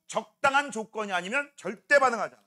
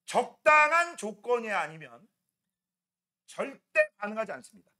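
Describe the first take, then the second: First: Said in the usual way. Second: Slow, weighted stress on 절대; teacher stressing a key rule slowly; slow emphasis. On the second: Shown as a demonstration. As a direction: hit 절대 hard and slow. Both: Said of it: "뭐라고?".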